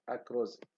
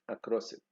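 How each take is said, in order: First: The s in 'across' is voiced like z. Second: The s in 'across' is voiceless. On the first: The speaker calls it wrong. "z for z sound ... between two vowels" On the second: The speaker calls it right. "instead of"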